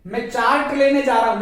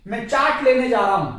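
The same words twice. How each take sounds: First: चार्ट with an audible r in the sentence; wrong pronunciation. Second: चार्ट with a silent r in the sentence; correct pronunciation. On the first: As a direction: say चार्ट as "chaart". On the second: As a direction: say चार्ट as "chaat". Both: Shown as a demonstration. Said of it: "नहीं".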